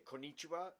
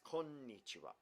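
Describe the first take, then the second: First: The n sound in the middle is short. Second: The n sound in the middle is held long. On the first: The speaker calls it wrong. "that's wrong" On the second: The speaker calls it right. "It's konnichiwa"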